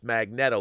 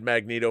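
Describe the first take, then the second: First: The first part sounds like the word 'magnet'. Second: The first part does not sound like 'magnet'. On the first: "like, you know, Magnet O" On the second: "I always said Magneto"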